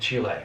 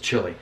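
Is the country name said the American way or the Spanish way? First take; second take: Spanish; American. First: The name is said with a Spanish-style pronunciation. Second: The name is said with an American pronunciation.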